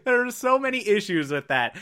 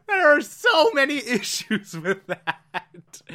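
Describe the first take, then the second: First: Said in the usual way. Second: Laughing through it, slowed; can barely get it out for laughing; laughing disbelief. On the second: Real, not acted. Laughing first take.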